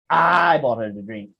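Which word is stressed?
I. The stress falls on the word I. It was the speaker, not someone else, who paid. "Siapa yang beli? Who buy?"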